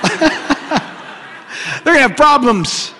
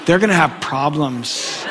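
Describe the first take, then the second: First: Higher and slow, laughing it out. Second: Said in the usual way. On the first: Shown as a demonstration. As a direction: stretch "They're gonna have problems" into a high, slow laugh.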